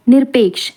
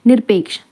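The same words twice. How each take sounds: The two takes are said the same way.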